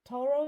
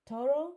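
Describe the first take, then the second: Both takes have the same delivery.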